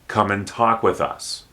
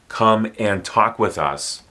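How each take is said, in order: First: The word 'and' is reduced to an n. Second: The word 'and' is said in full.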